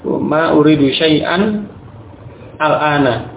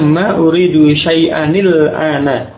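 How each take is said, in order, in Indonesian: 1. Kedua kata dipisah, dengan akhiran an yang tetap dibaca biasa. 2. Kedua kata disambung dengan bunyi nil penghubung. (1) "ketika membaca terpisah, maka kembali ke asalnya" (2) "dibaca dengan bersambung seperti itu"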